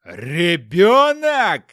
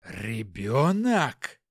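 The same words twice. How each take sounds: First: Drawn-out, very loud yell; furious roar. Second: Slow, low, drawn-out quaver of rage; barely holding back fury; voice trembling with anger. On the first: Hopkin roars at his wife about the baby, furious yell. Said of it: "заорал он так громко". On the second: Hopkin sees the baby, voice shaking with anger. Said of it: "Голос Хопкина от гнева дребезжал". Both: Acted.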